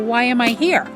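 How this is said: The question sounds indignant and exasperated. The speaker calls it wrong. "in this really indignant fashion"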